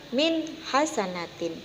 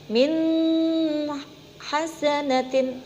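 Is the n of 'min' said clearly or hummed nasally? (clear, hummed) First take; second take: clear; hummed. First: The n sound is crisp with no hum. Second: The n sound is held with a nasal hum. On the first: The speaker calls it right. "yang betul" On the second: The speaker calls it wrong. "itu salah. Karena membacanya ada dengungnya"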